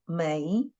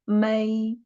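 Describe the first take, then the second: First: The pitch rises from mid to high. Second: The pitch stays high and level. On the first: "Second tone 美" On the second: "The first tone should be 美"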